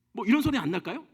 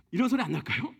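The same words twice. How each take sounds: First: A pointed, irritated throat clear; exasperated throat-clearing. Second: Said in the usual way. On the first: Shown as a demonstration. God fed up with Moses's excuses, a pointed irritated throat clear. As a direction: clear the throat at someone's nerve. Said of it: "우리 입에서 나오는 소리가 있어요". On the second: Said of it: "아니면".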